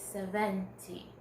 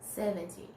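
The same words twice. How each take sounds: First: It has the Black South African stress placement. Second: It has the American English stress placement. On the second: "in American English"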